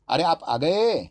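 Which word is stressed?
गए. The stress is on the last word.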